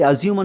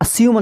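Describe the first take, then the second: First: The middle consonant is a z sound. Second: The middle consonant is an s sound. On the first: The speaker calls it wrong. "ಝ ಶಬ್ದ ಬಳಸಿ ಅಸ್ಯೂಮ್ ಅಂತ ಹೇಳೋದಿಲ್ಲ" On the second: The speaker calls it right. "ಅಸ್ಯೂಮ್ ಅಂತ ಹೇಳ್ತೀವಿ"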